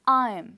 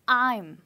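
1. यह एक संकुचित अक्षर के रूप में बोला जाता है। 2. यह एक संकुचित अक्षर के रूप में बोला जाता है।

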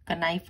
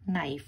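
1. N से पहले K की आवाज़ सुनाई देती है। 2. शब्द सीधे N की आवाज़ से शुरू होता है। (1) "कनाइफ नहीं बोलना" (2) "इसमें K साइलेंट है"

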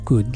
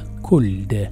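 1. تُنطق الكلمة بدون صوت L. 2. تُنطق الكلمة بصوت L. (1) "تنطق could" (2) "ليس could"

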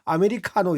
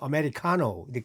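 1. 'ca' 음절은 강세가 없어요. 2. 'ca' 음절은 강세가 있어요. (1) "우리는 보통 아메리카노 이렇게 하는데" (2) "미국 사람들은 아메리카노. 카자에 강세를 넣어서 합니다"

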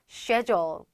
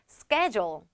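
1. 영국식 발음으로 말합니다. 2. 미국식 발음으로 말합니다. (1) "영국이나 호주식으로 들어가게 되면" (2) "미국식 발음으로 들어가게 되면"

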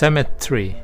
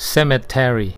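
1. ออกเสียงด้วยสำเนียงอังกฤษ 2. ออกเสียงด้วยสำเนียงอเมริกัน

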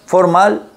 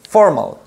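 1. El acento está en la última sílaba. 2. El acento está en la primera sílaba. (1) "el acento que va en la última sílaba en español" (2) "lo marcas en la primera en inglés"

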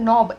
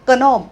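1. शब्द n आवाजाने सुरू होतो, k नाही. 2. शब्द k आवाजाने सुरू होतो, n च्या आधी. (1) "इथे उच्चार आपण नॉब NOB एवढाच करतो" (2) "कनॉब असं काहीतरी करत नाही"

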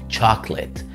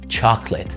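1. يُحذف الحرف الصوتي الأوسط، فتصبح مقطعين. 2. يُحذف الحرف الصوتي الأوسط، فتصبح مقطعين.

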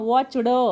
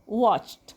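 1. शेवट 'd' आवाजासारखा उच्चारला जातो. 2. शेवट 't' आवाजासारखा उच्चारला जातो. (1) "वॉच ड असं म्हणू नका" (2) "तुम्हाला इथे उच्चार करावा लागेल ट"

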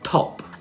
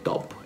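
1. La t si dice con un soffio d'aria. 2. La t si dice senza un soffio d'aria. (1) "Come in top" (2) "Non è top"

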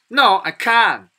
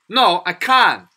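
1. 미국 억양으로 말한 거예요. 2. 미국 억양으로 말한 거예요.

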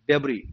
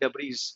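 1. इस शब्द का अंत एक स्वर से होता है, इसमें s नहीं है। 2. इस शब्द का अंत एक साफ़ सुनाई देने वाली s ध्वनि से होता है। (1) "एस नहीं पढ़ा जाएगा इसमें" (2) "हम कह देते हैं डेब्रीज, डेब्रीज नहीं है"

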